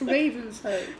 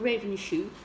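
First: The name is pronounced the way locals say it. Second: The name is pronounced as it is spelled. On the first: The speaker calls it right. "Idiot, it's Ravenshoe" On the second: The speaker calls it wrong. "If you say, oh, it's we're going through Ravenshoe"

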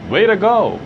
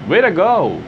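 The two takes are said the same way.

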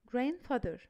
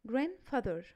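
The two takes are said the same way.

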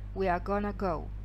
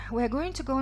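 First: Going to is reduced to gonna, quickly. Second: Going to is said in full, slowly.

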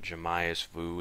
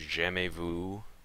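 First: The words are pronounced the English way. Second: The words are pronounced the French way. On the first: The speaker calls it wrong. "It's not" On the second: The speaker calls it right.

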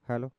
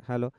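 No difference in how they are said.

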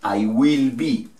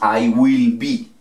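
Both takes have the same delivery.

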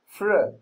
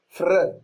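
First: The r is a soft English-style r. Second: The r is a trilled Arabic-style r. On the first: The speaker calls it right. "فتنطقهم فر فر" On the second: The speaker calls it wrong. "مش صح انك تنطق فر كده، غلط"

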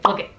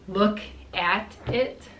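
First: The word 'at' is dropped entirely. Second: The word 'at' is clearly pronounced. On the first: "you say look it. We just completely eliminate the at" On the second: "instead of saying look at it"

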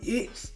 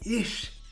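First: The word ends with a hissing s sound. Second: The word ends with a hushing sh sound. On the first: "I don't say it's" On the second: "I say ish"

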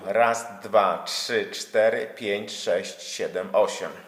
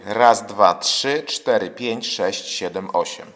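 First: The voice reaches the device from behind. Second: The voice reaches the device from above. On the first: "Mówię teraz od tyłu" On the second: "I teraz będę mówił do urządzeń od góry"

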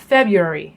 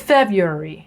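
Both takes have the same delivery.

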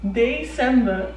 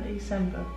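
First: It is said loudly and clearly. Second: It is said softly.

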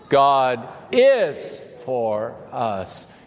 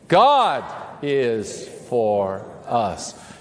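First: The stress falls on the word 'is'. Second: The stress falls on the word 'God'. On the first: God really is on our side, not just might be. "emphasize a different word each time" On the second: It is God, not just anyone, who is on our side. "emphasize a different word each time, starting with the first word"

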